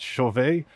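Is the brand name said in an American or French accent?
French. The name is said with a French pronunciation. "If you're French, it's Chauvet"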